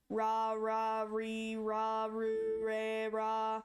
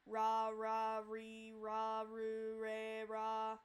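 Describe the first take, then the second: First: "ra, re, ru" said with an English R; wrong English R. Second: "ra, re, ru" repeated much softer with an English R; softer wrong R. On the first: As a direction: show the R to avoid. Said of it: "What you don't wanna do is". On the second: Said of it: "You don't wanna do that". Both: Shown as a demonstration.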